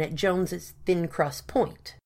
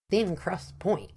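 First: Said in the usual way. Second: Slow, heavy plonking question. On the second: A narrator's reading. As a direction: drop each word like a weight. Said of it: "asked Parsons in a plonking tone".

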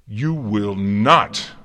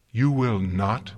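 First: Slow, very loud command; forceful outburst. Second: Louder, drawn-out refusal left hanging up; slow firm challenge. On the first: A narrator's reading. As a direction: thunder the refusal, every word drawn out. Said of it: "Celestia bit back the words". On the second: Acted. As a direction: forbid him slowly, ending on a rise. Celestia forbids, first take.

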